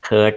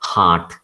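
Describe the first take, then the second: First: The vowel is a central 'er' sound. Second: The vowel is an open 'ah' sound. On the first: The speaker calls it wrong. "ഹേർട്ട് അല്ല" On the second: The speaker calls it right. "ഹാർട്ടാണ്"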